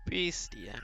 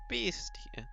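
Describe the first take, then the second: First: Said in the usual way. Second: Whispered. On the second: Acted. Repeats name in different voices.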